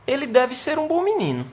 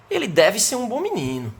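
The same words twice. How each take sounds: First: Pitched higher, light and speculative on "deve ser"; casual guess. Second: Firm, insistent warning, stress on "deve"; firm obligation. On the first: Someone asked about a boy only heard of, a light casual guess. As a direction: shrug it off as a guess about a boy you don't know, "deve" unstressed. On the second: Teacher telling a father his son must behave, firm and insistent. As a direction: say "deve" like an order, not a guess. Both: Shown as a demonstration. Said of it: "da entonação que eu expresso na minha frase".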